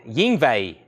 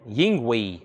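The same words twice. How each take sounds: First: Yingwei said as "ying-vay", ending in vay; trying the pronunciation. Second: Yingwei said as "ying-wee", ending in wee; trying the pronunciation. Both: Shown as a demonstration. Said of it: "I'm gonna go with Yingwei".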